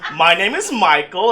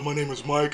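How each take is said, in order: First: It is said in a flamboyant, lively voice. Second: It is said in a flat, casual bro voice.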